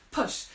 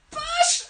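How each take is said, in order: First: Said in the usual way. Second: Push! shouted much higher and louder. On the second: Shown as a demonstration. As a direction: bark out Push! with full force.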